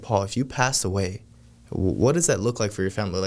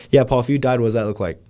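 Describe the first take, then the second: First: With conviction. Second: Casual run-through of a heavy question, no pause; offhand, unthinking. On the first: Salesman asking Paul about his family after death, with conviction. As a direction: ask it sincerely and let it weigh. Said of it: "just really have the conviction". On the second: Salesman asking Paul about dying without thinking, offhand. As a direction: toss the question out quickly and louder, without weight. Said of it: "you're not thinking about it". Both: Shown as a demonstration.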